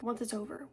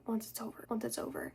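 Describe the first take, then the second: First: Said in the usual way. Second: Fading echo. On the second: Shown as a demonstration. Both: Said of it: "just keeps repeating in your head".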